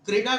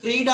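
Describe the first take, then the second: First: The vowel after 'kr' is short. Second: The vowel after 'kr' is long. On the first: The speaker calls it wrong. "क्रीड़ा नहीं है" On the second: The speaker calls it right. "उसमें बड़ी ई की मात्रा है"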